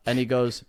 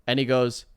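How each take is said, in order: Both takes have the same delivery.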